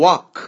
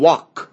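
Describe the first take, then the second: Both takes have the same delivery.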